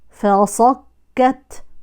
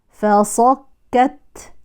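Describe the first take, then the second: The two takes are said the same way.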